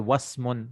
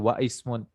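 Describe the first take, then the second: First: The words join and the initial vowel is dropped. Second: The initial vowel of the second word is pronounced. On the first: The speaker calls it right. "Like you say wasmun" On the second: The speaker calls it wrong. "you don't say wa ismun"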